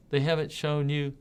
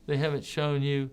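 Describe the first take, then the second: No difference in how they are said.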